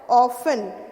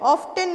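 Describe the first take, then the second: First: The word has no t sound in the middle. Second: The word has an audible t sound in the middle. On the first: The speaker calls it right. "क्या होता है" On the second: The speaker calls it wrong. "ऑफ्टन नहीं होता है"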